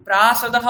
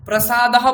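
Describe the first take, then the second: First: প্রাসাদহ with the second a rushed; wrong rushed sa. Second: প্রসাদহ with short clipped pra; wrong short pra. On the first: Teacher demos the rushed-sa প্রাসাদহ. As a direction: say প্রাসাদহ clipping the সা. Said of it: "প্রাসাদহ বললেও ভুল". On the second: Teacher demos the wrong short-vowel প্রসাদহ. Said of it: "প্রসাদহ বললেও ভুল". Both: Shown as a demonstration.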